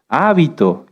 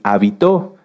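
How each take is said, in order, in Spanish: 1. El acento está en la primera sílaba. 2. El acento está en la última sílaba. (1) "lleva acento en la A" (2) "si lo cambiamos hacia el final"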